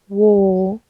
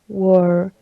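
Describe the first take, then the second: First: The r is dropped and the vowel lengthened. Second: The r after the vowel is pronounced. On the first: "In British English, the post-alveolar approximant is deleted" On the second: "as Will pronounces in the video"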